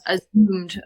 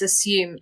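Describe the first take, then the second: First: The middle consonant is a buzzing Z sound. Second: The middle consonant is a hissing S sound. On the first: The speaker calls it wrong. "you used a Z sound, a Z" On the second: The speaker calls it right. "and it's assumed"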